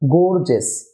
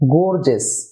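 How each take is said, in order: No difference in how they are said.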